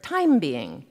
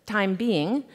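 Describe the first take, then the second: First: "TIME being", first word hit, then falling; stress on TIME. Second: "time BEING", weight on the second word; stress on BEING. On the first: Author showing the phrase as a kind of creature, stress on "time". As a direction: punch "time" and let "being" drop away. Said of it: "if you emphasize the first word". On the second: Author showing how the phrase's meaning shifts, stress on "being". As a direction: lean on "being", letting it lift at the end. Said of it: "If you emphasize the second word". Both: Shown as a demonstration.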